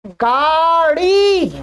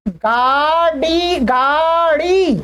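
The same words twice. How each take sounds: First: गाड़ी said slowly, falling at the end; slow model word. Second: गाड़ी drawn out slowly with a retroflex flap; slow model word. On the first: Teacher repeats गाड़ी for learners, slow and falling. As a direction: draw out गाड़ी slowly and let it fall. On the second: Teacher slowly models गाड़ी for Hindi learners, drawn out. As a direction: stretch गाड़ी slowly, flapping the ड़. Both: Shown as a demonstration. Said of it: "अब देखिए, आराम से".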